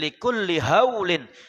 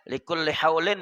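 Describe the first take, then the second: First: The h is a soft, plain breath. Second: The h is a harsh, throaty sound. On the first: It means terrors or shocks. The speaker calls it right. "Tapi likulli haulin, dari tiap-tiap goncangan" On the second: It means states or conditions. The speaker calls it wrong. "jangan pakai ha, ya. Likulli haulin minal ahwali, salah"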